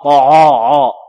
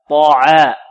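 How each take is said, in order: First: The ain is pronounced heavy and thick. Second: The ain is pronounced light and thin. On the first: The speaker calls it wrong. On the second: The speaker calls it right.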